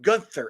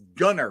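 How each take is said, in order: First: The name is said with a 'th' sound. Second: The name is said without a 'th' sound. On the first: The speaker calls it wrong. "it's not Gunther" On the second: The speaker calls it right. "It's Gunner"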